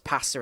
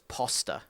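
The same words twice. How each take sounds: First: It is said with a British accent. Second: It is said with an American accent.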